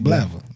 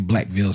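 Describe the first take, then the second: First: The name is reduced, dropping its middle consonants. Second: The name is said in full, all sounds clear. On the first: "somebody back home, when we talk about Blackville, we say Blavel" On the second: "to say Blackville"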